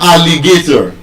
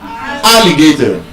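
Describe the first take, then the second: First: The stress is not on the first syllable. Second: The stress is on the first syllable. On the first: The speaker calls it wrong. "It's not alligator" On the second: The speaker calls it right. "It is alligator"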